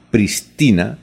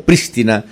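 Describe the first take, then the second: First: "pristina" with the stress off PRIS, on the middle TI; no accent on first syllable. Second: "prístina" stressed on the first syllable, PRÍS-ti-na; accent on first I. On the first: Radio host reads listener's question to professor, "pristina" unaccented on PRIS. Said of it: "la pronunciaron sin acento". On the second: Radio host offers professor the other option, "prístina" stressed on PRÍS. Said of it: "se pronuncia con acento en la I". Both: Shown as a demonstration.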